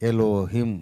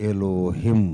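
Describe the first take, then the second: No difference in how they are said.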